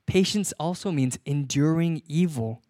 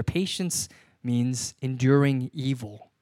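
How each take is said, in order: First: Said in the usual way. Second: Slow emphasis. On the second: Shown as a demonstration. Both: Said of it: "it actually goes a little bit further".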